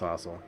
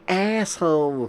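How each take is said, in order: First: It is said in a British accent. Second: It is said in an American accent. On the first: "but I'm British, so it's" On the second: "for the Americans"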